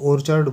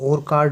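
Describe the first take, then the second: First: The middle consonant is a ch sound. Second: The middle consonant is a hard k sound. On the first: The speaker calls it right. "इसको ओरचर्ड बोलते हैं" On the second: The speaker calls it wrong. "इसको और कार्ड नहीं"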